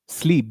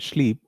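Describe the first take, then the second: First: The word begins with a plain s sound. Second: The word begins with an sh sound. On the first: The speaker calls it right. "they don't say sleep" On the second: The speaker calls it wrong. "they say sleep"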